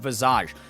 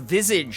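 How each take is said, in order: First: It is pronounced the French way. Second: It is pronounced the American way. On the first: "it's a French word, so it's visage" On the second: "as Americans would say"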